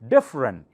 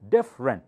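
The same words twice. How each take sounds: First: The middle syllable is dropped, giving two syllables. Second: The same.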